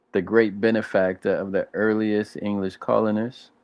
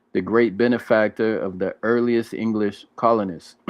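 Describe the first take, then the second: The two takes are said the same way.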